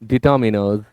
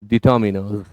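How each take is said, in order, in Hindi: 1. तीसरा अक्षर 'min' जैसा सुनाई देता है। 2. तीसरा अक्षर 'min' जैसा सुनाई देता है।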